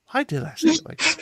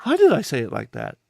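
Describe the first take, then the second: First: Much higher, squeaky self-mockery. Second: Said in the usual way. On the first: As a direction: squeal it, teasing yourself. Repeats it, mocking himself.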